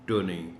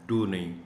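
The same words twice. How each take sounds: The two takes are said the same way.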